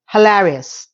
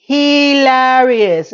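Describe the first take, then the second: First: Said in the usual way. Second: "Hilarious" stretched very slowly; drawn-out emphasis. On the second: Real, not acted. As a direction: draw out every syllable of "Hilarious". Repeats word drawn out for emphasis.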